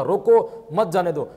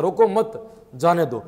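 First: "रोको", a pause, then "मत जाने दो" together; slowly, with the comma right after "रोको". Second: "रोको मत" together, a pause, then "जाने दो"; slowly, with the comma right after "मत". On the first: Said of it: "विराम चिन्ह या लगा दिया जाए". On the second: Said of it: "विराम चिन्ह यदि या लगा दिया". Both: Shown as a demonstration.

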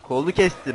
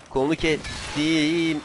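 First: Said in the usual way. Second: Slow, stretched "kestim"; drawn-out taunt. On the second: Pretend. Player gloating over a cut arm, slow drawn-out taunt. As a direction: drag out the vowels of "kestim".

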